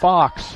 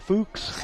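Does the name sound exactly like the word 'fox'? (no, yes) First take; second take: yes; no. First: The name is said just like the word fox. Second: The name is said unlike the word fox. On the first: The speaker calls it right. "And it's not. It's Fox" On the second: The speaker calls it wrong. "If I saw that name, it would be Fuchs"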